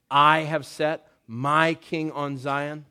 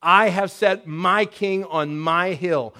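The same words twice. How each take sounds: First: Said in the usual way. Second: "I" stressed, slower and louder; "I" punched, the line slowed and raised; emphatic I. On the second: Shown as a demonstration. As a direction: hit "I" and "my" with weight. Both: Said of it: "it's emphatic".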